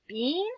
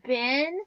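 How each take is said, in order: First: The vowel is a long E sound. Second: The vowel is a short sound. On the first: The speaker calls it wrong. "that long E sound" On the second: The speaker calls it right. "I'm going to try short"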